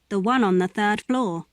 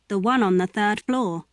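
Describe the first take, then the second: The two takes are said the same way.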